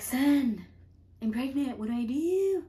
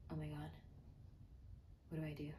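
First: High, loud retold panic; mock freaking out. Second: Low whispered dread, retold; hushed mock panic. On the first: Telling Bonzo about the pregnancy, hammed-up panic. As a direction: wail it half-jokingly for help. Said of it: "I'm, like, freaking out". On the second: Freezing while packing the suitcase, hushed retold panic. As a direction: whisper it, stunned and helpless.

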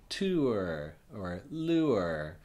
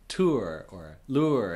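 First: TOUR and LURE very slow, vowel split in two; almost two sounds. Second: Said in the usual way. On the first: Shown as a demonstration. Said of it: "really kind of almost two sounds". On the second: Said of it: "I speak fast. So I just say".

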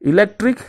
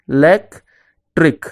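First: Said in the usual way. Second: "electric" slowly as e - lec - tric; long pauses between each syllable of "electric"; split into syllables. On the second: Shown as a demonstration. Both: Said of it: "divide the words into syllables".

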